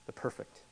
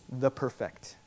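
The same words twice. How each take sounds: First: Perfect stressed on its first syllable, PER-fect, softly; corrected stress. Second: Perfect stressed on its second syllable, per-FECT, slowly; misplaced stress. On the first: Preacher fixing his emphasis, softly stressing PER-fect. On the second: Preacher on threefold repetition, stressing per-FECT. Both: Real, not acted. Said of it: "We have my em-, emphasis right".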